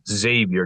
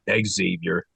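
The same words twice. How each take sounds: First: The name starts with a plain 'z' sound. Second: The name starts with an 'ex' sound. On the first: The speaker calls it right. "you don't pronounce the X when you actually say the name" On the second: The speaker calls it wrong. "not Xavier"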